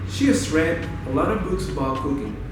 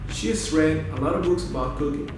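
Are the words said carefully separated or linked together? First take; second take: linked; linked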